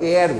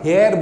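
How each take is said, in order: First: The word begins with a vowel, no h sound. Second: The word begins with an audible h sound. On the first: The speaker calls it right. "আমরা এয়ার বলি" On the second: The speaker calls it wrong. "আমরা হেয়ার বলি না"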